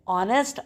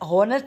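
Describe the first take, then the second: First: The word starts with a vowel, no h sound. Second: The word starts with an audible h sound. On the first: The speaker calls it right. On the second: The speaker calls it wrong. "हॉनेस्ट नहीं बोलना"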